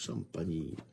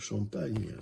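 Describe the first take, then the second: First: The name ends in a 'nee' sound. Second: The name ends in a plain 'n' sound. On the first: The speaker calls it right. "c'est Champagny" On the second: The speaker calls it wrong. "c'est pas Champagne"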